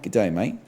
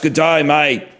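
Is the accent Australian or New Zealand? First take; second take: New Zealand; Australian. First: It is said in a New Zealand accent. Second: It is said in an Australian accent.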